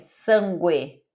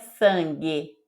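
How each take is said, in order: First: The u after the g is sounded separately. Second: The u after the g is silent. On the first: The speaker calls it right. "é sangue ... você precisa falar separado" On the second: The speaker calls it wrong. "Não é sangue"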